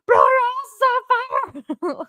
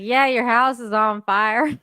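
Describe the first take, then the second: First: It is said in a panicked, alarmed way. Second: It is said calmly and casually.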